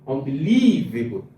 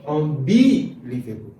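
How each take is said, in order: First: The stress is on the third syllable. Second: The stress is on the second syllable. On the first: "If I put it on the third one" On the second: "If I put it on the second one"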